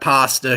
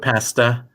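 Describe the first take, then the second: First: The word is said with an American pronunciation. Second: The word is said with a British pronunciation. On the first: "old America, we got pa- we got pasta here" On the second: "I think the U K is more of a pasta"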